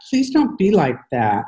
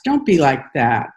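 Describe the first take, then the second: First: Higher, more desperate plea with a break in the voice; pleading, voice cracking. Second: A mild plea, holding it together; pleading. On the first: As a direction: beg harder, let the voice crack on don't. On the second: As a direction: gently beg her not to be cold. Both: A narrator's reading. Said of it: "Nick's voice cracks".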